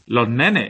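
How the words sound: The s at the end of los becomes a breathy h. "esa S no va a sonar nunca... es como una especie de H aspirada"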